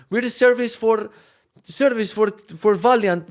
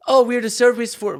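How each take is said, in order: First: Thick mock Polish accent, high and loud; heavier Polish accent. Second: High, loud imitation Polish accent. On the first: Service people introducing themselves, thick mock Polish accent. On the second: Service people arriving at the house, mock Polish accent. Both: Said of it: "with way heavier Polish accent".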